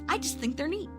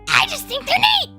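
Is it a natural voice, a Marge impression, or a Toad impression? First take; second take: natural; Toad. First: It is said in the speaker's natural voice. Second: It is said in a full Toad voice.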